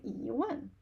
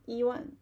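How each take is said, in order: First: E gliding up, one falling; natural E one, up then down; rising tone on E. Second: E kept level, not rising, before one; unchanged tone on E. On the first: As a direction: lift E, then drop one. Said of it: "it sounds more natural". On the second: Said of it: "it's much easier to say than". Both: Shown as a demonstration.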